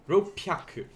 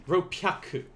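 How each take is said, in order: The two takes are said the same way.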